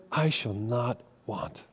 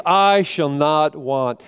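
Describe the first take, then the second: First: Soft, slow, hushed and certain; quiet declaration. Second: "I shall not want" slow, firm, full voice; firm declaration. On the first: David quietly declaring contentment, slow and hushed. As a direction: let it settle, slow and soft. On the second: David still insisting through heartache, slow and firm. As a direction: plant each word of "I shall not want" slowly. Said again despite great pain. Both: Acted.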